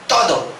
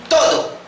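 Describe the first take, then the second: First: Said in the usual way. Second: Todo leapt up high, hammered; emphatic todo. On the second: Acted. Preacher to congregation, todo hit high. Preacher stressing key word.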